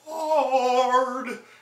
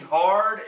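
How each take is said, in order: First: The word is said with forced, exaggerated emotion. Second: The word is said plainly, without added emotion. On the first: The speaker calls it wrong. "he's almost forcing some emotion in there" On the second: The speaker calls it right. "instead of just saying hard"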